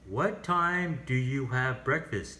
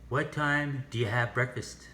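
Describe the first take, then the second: First: "Do you" is said fully and clearly. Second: "Do you" is reduced to "do ya". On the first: The speaker calls it wrong. "we don't say" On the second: The speaker calls it right. "the sound of do you is do ya"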